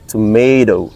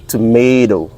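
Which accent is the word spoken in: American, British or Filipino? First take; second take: American; American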